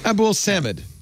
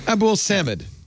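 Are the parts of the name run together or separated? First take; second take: run together; run together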